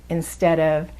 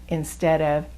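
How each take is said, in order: The two takes are said the same way.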